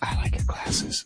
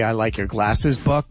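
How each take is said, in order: First: It is said in a whisper. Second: It is said in a normal voice.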